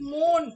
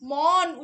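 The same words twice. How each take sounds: First: The vowel is a rounded 'oh' sound. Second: The vowel is an open 'aw' sound. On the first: The speaker calls it wrong. "আমরা করি মন ... অয়ের বদলে ও উচ্চারিত হচ্ছে" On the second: The speaker calls it right. "মন উচ্চারণ করে উচ্চারণের বদলে"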